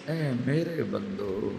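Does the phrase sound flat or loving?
loving. It is said in a warm, tender tone. The speaker calls it right.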